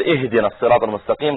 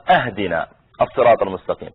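First: Said in the usual way. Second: أهدنا opened with "a", as "ahdina"; mistaken recitation. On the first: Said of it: "بدل ما يقول". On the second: Shown as a demonstration. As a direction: misread the first vowel of أهدنا as a fatha instead of a kasra. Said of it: "فهذا غير المعنى".

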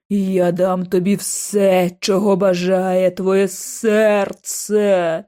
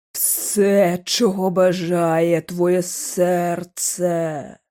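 First: Very slow luring ghost voice; ghostly murmur. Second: Very slow luring ghost voice; ghostly lure. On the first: The hooded ghost tempts George, very slowly. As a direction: draw each word out like a tempting spirit. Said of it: "пробурмотіла постать у каптурі". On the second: The hooded ghost repeats its promise, very slowly. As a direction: stretch it out, hollow and tempting. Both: A narrator's reading.

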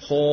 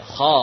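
First: "Kho" wrongly rounded with pushed-out lips; kho with lips forward. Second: "Kho" loud and heavy, mouth simply open. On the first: Teacher showing what to avoid, "Kho" with lips pushed forward. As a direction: pout the lips on "Kho", closing the vowel toward o. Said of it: "Apakah mulut maju?". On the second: Teacher correcting the lip position, "Kho" said open and heavy. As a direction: open the mouth on "Kho" without rounding the lips. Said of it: "Mulut hanya kita buka saja". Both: Shown as a demonstration.

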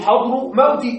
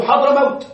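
First: حضر موت split as "hadru mawti"; wrong example "hadru mawti" for حضر موت; wrong genitive construct. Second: حضر موت as one word, "Hadramawt"; teacher's model "Hadramawt" for حضر موت; correct fused compound. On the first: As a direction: break حضر موت in two, with endings "-u" and "-i". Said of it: "نحن لا نقول". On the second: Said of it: "نحن نقول حضر موت". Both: Shown as a demonstration.

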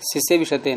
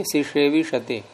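First: सिसेविषते with a plain dental s in "si-se"; wrong dental s. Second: सिसेविषते slowly, as "si-she-vi-sha-te"; slow corrected सिसेविषते, with sh in "she"; corrected retroflex sh. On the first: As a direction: say सिसेविषते as "si-se-vi-sha-te". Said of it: "सिसेविषते नहीं". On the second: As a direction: turn the second s of सिसेविषते into retroflex ष. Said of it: "मूर्धन हो जाएगा ना". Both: Shown as a demonstration.

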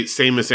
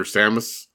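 First: Samus said SAY-mus, long A; SAY-mus pronunciation. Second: Samus said SAM-us, short A; SAM-us pronunciation. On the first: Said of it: "I also say Samus Aran". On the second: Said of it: "everyone insists on calling her Samus". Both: Shown as a demonstration.

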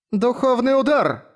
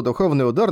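First: Much higher, slow battle call; shouted attack name. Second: Said in the usual way. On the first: Acted. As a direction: cry the skill name out as you strike. Lepis calls out her attack.

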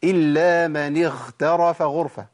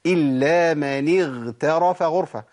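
First: Slow recitation of اغترف with gh turned to kh; wrong ghayn. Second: Slow, chanted اغترف with a fully voiced gh; correct ghayn. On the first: Teacher asking where the mistake is, deliberately mispronounced. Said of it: "طب الخطأ فين؟". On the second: Teacher repeating the correct verse, slow careful recitation. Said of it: "أنا قلتها صح كده". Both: Shown as a demonstration.

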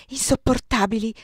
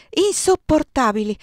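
First: Said in the usual way. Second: Louder, higher, the word bursting out; distressed outburst. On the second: A narrator's reading. A young woman overwhelmed at the table, distressed outburst. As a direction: let insopportabili break out in distress.

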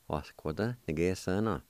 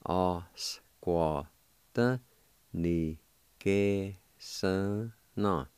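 First: Said in the usual way. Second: Very slow, drawn-out Osquataniguesana; slow syllable by syllable. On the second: Shown as a demonstration. Teacher joining both parts slowly for students. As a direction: stretch out every part of Osquataniguesana.

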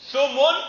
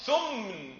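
First: ثمن as thumun, u after the m; two high, loud syllables in ثمن, thu-mun; damma on mim. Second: ثمن as thumn, no vowel after m; sukun on mim. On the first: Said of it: "بضم الميم". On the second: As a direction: slowly run m into n in ثمن. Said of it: "بإسكان الميم". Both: Shown as a demonstration.

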